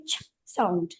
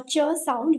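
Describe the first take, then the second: First: "ch" as a voiceless burst, no vowel; pure ch sound. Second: "ch" voiced as "chuh"; ch with added vowel. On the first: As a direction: clip "ch" free of any "uh". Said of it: "We say ch sound". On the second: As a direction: say "ch" with a schwa after it. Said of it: "We cannot say". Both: Shown as a demonstration.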